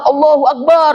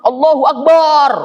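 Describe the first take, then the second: First: The vowel in Akbar is drawn out long. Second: The vowel in Akbar is drawn out long.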